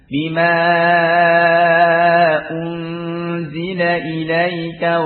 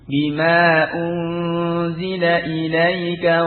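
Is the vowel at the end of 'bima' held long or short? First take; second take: long; short. First: The vowel before the glottal stop is drawn out long. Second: The vowel before the glottal stop is kept short. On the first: This follows one transmission chain of the reading. "semua dibaca mad ya. Dengan panjang" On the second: This follows another transmission chain of the reading. "dengan dibaca pendek ya... cukup dua harokat"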